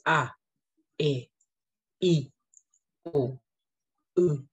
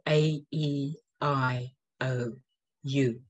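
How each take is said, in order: First: The vowels are said as pure Māori vowel sounds. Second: The vowels are said as English letter names. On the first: The speaker calls it right. "It's A, E, I, O, U" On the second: The speaker calls it wrong. "we're not using the English sound of A, E, I, O, U"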